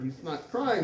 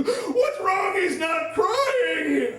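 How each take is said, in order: First: Said in the usual way. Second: High, loud drawn-out wail; frantic screaming. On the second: Retold or imitated. Wife fearing for newborn, frantic scream. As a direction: wail it in mock panic.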